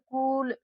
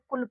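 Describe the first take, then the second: First: The u vowel is long and drawn out. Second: The u vowel is short and clipped. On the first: "जब इसका उच्चारण यू का खींच करके निकलता" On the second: "कुल पढ़ रहे हैं। तो यहाँ पर यू से लगेगी छोटा ऊ की मात्रा।"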